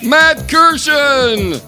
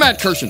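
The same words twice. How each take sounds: First: The name is announced in a fancy way. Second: The name is announced in a plain way. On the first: The speaker calls it right. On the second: The speaker calls it wrong.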